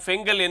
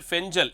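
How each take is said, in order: First: The middle consonant is a hard g sound. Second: The middle consonant is a soft j sound. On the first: This is the name used locally before. "ஏற்கனவே நாம் ஃபெங்கல் என்று அதை பெயரிட்டு அழைத்து வந்தோம்" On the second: This is the officially announced name. "அதிகாரப்பூர்வமாக அறிவிக்கப்பட்ட பெயர் ஃபெஞ்சல்"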